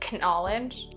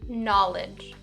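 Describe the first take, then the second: First: The initial K sound is pronounced. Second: The initial K sound is silent. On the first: The speaker calls it wrong. "you don't say knowledge, no" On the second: The speaker calls it right. "just knowledge"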